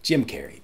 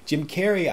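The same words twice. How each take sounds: First: Said in the usual way. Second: Name repeated, pitched up and louder; excited emphasis. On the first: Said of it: "introducing the two stars". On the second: Real, not acted. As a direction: relish the name Jim Carrey. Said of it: "repeating the name with excitement".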